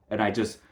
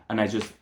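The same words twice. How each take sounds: The two takes are said the same way.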